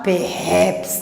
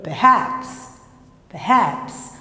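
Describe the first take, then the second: First: "perhaps" with a full, clear first syllable; student's mispronunciation. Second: "perhaps" with a weak, reduced "per"; schwa pronunciation. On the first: Teacher imitating what the student wants to say, mispronounced "perhaps". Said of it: "O aluno quer falar perhaps". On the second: Teacher correcting students' pronunciation, "perhaps" with a schwa. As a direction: swallow the first vowel of "perhaps", weight on "haps". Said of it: "E não é. P-, perhaps". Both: Shown as a demonstration.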